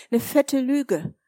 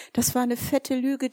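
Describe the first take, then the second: First: Fette Lüge said slowly and leaned on; slow emphatic repeat. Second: Said in the usual way. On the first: Acted. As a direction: drag out fette Lüge with weight. Repeats the lie, slow and stressed.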